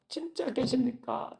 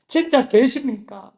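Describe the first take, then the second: First: Hushed plea. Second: Pleading cry. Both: Retold or imitated. Desperate prayer asking if God exists.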